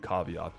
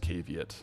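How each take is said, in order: First: The word is said in its Latin-style form. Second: The word is said in its common everyday form. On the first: "correct Latin pronunciation would be caveat" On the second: "in Canada, the common pronunciation is caveat"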